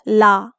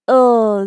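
First: An L sound followed by an added vowel. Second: A bare L sound with no vowel after. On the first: The speaker calls it wrong. "not la. It's not la. Don't say la" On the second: The speaker calls it right. "This is L"

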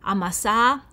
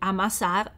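First: The word ends in a long vowel, no r. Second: The word ends with a short vowel and r. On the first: "si ha l'allungamento della vocale precedente" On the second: "invece di"

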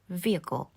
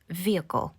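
Both takes have the same delivery.

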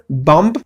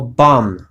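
First: The final b is sounded. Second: The final b is silent. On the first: The speaker calls it wrong. "Nie mówię bomb, ponieważ to jest niepoprawne" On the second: The speaker calls it right. "Zauważ, jak wymawiam słowo bomb"

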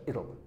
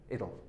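Both takes have the same delivery.

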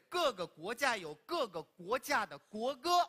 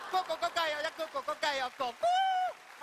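First: It is said in standard Mandarin. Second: It is said in Wenzhou dialect.

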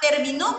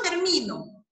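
First: The stress is not on the second-to-last syllable. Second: The stress is on the second-to-last syllable. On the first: He finished, in the past. "¿Terminó quién? Él" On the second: I am the one who finishes. "la tomamos como una grave, porque solamente le vamos a encontrar la sílaba tónica"

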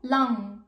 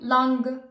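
First: The final ng sound is pronounced lightly. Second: The final ng sound is pronounced fully. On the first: The speaker calls it right. "بنلفظها شوي صغير" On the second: The speaker calls it wrong. "نحن ما عم نقول lang"

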